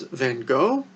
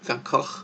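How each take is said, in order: First: The name is pronounced the English way. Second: The name is pronounced the Dutch way. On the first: The speaker calls it wrong. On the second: The speaker calls it right.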